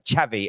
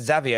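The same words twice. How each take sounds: First: The name begins with a ch sound. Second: The name does not begin with a ch sound. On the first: This is the way others say it should be said. The speaker calls it right. "Xavi as in like ch, C H" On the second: This is the way it has long been said locally. The speaker calls it wrong. "I think we said Xavi over here for a long time"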